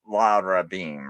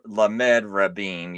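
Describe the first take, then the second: First: The prefix is read as a short syllable. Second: The prefix is read as the full letter name. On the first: The speaker calls it right. "You say" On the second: The speaker calls it wrong. "you don't say"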